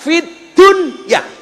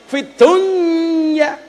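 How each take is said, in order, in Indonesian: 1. Konsonan pertama dibaca jelas dan terpisah. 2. Konsonan pertama menyatu dengan d berikutnya. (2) "Harusnya idgham loh"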